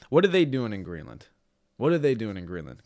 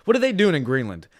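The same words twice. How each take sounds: First: Said in the usual way. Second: Louder, higher mock disbelief; what are they doing, yelled up high; mock outraged shout. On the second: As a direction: shout it like a fired-up fan. Mock outraged question, loud.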